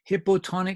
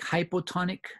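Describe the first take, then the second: First: The first syllable sounds like 'hip'. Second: The first syllable sounds like 'high'. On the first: The speaker calls it wrong. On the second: The speaker calls it right.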